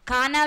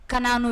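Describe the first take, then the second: First: కానా with a long first "kaa"; కానా as "KAA-naa", set apart as another name; contrasted pronunciation. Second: కనాను with a short first "ka"; కనాను as "ka-NAA-nu", set apart from the other name; correct pronunciation. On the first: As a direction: say కానా, drawing out the first vowel. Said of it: "కానా వేరు, కనాను వేరు". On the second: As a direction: say కనాను, short first vowel, long second. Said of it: "pronunciations కరెక్ట్గా పలకాలి". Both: Shown as a demonstration.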